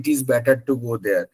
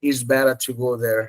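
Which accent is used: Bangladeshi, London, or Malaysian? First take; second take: Bangladeshi; London. First: It is spoken in a Bangladeshi English accent. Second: It is spoken in a London English accent. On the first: "বাংলাদেশে যখন আসে তখন বলে" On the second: "London কি বলে? ... এইভাবে বলে"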